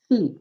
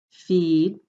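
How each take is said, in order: First: "feet" with a clipped ee stopped by the t; short vowel before voiceless t. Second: "Feed" with a long, held ee; long vowel before voiced d. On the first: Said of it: "second one ... shorter". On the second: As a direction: stretch the ee in "Feed". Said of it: "first word will sound longer". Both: Shown as a demonstration.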